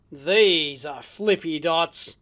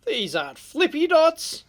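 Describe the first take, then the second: First: Slow, lower "These are flippy dots", stretched on "These"; "These" held long and low before "are flippy dots"; boastful reveal. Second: Higher-pitched stress on "aren't flippy dots"; "aren't flippy dots" lifted high in playful disbelief; mock dismissive contrast. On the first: Acted. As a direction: draw out "These" in a deep, savoured reveal. Catchphrase reveal answering first take. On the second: Catchphrase contrast with next take.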